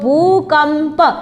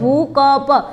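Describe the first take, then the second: First: The second syllable has a nasal sound. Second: The second syllable has no nasal sound. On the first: "તમે ઉપર અનુસ્વાર મૂકો અને પછી બોલો શબ્દ" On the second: "આ કની ઉપરથી અનુસ્વાર લઈ લઉં થોડી વાર"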